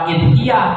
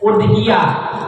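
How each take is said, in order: First: The word begins with an i vowel. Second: The word begins with a u vowel. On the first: The speaker calls it wrong. "bukan idhiyah" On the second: The speaker calls it right. "tapi dibacanya u udhiyah"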